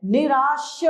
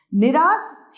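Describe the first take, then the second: First: निराश said as nirāsh with a clear sh; निराश ending on the sh of शलजम; correct pronunciation with sh. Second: निराश said as nirās with a plain s; निराश with s instead of sh; wrong pronunciation with s. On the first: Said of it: "श, शलजम वाला श". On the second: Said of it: "निराश शब्द गलत है". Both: Shown as a demonstration.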